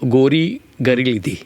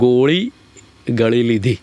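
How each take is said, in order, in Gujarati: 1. વચ્ચેના વ્યંજનો R અવાજ તરીકે બોલાય છે. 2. વચ્ચેના વ્યંજનો મૂર્ધન્ય L તરીકે બોલાય છે.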